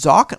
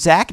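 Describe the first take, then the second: First: The vowel sounds like the one in 'Mock'. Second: The vowel sounds like the one in 'Mac'. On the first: The speaker calls it wrong. "not Zoc, not Mock" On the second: The speaker calls it right. "Zach, like Mac"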